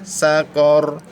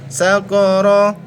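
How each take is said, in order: First: The word ends on a bare consonant. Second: The word ends with an open vowel sound. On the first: The reader stops at the end of the verse. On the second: The reading continues without stopping. "ro-nya berharokat fathah"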